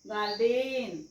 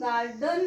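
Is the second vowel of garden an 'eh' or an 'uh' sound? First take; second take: eh; uh. First: The second vowel is a clear 'eh' sound. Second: The second vowel is a short 'uh' sound. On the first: The speaker calls it wrong. "गार्डेन असं नाही म्हणत" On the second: The speaker calls it right. "आपण गार्डन म्हणतो"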